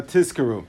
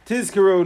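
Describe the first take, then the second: First: "Tizkaru" with the z turned to s, "Tiskaru"; blurred Zayin. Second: "Tizkaru" with a distinct, voiced z; emphasized Zayin. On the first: Teacher showing what not to say, blurred Zayin. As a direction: say an unvoiced s in place of z in "Tizkaru". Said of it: "not just". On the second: Teacher modelling proper Shema recitation, emphasized Zayin. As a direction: carefully buzz the z in "Tizkaru". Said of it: "you should be careful to say". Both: Shown as a demonstration.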